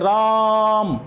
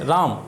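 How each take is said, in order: First: The name is called loudly with a long vowel. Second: The name is said plainly with a short vowel. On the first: This is how one calls someone far away. The speaker calls it right. "हम तेजी से बोलेंगे राम, ऐसे करके बोलेंगे।" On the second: This is not how one calls someone far away. The speaker calls it wrong. "ऐसे तो नहीं पुकारेंगे।"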